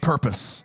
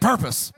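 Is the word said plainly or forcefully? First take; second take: plainly; forcefully. First: It is said plainly, without extra force. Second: It is said forcefully, with strong conviction.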